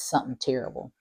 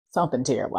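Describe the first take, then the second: First: Said in the usual way. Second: Something terrible, louder, with a firm falling stress on Something; Something terrible, leaned on hard; stressed repeat. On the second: Shown as a demonstration. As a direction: say it again, heavier, landing on Something. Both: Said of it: "And I say something terrible because".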